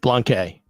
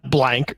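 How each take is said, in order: First: The name ends with an added vowel sound. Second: The name ends on a k sound. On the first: The speaker calls it right. "It's Blanquet" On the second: The speaker calls it wrong. "so it's not blank, right?"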